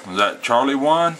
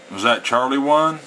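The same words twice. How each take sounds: The two takes are said the same way.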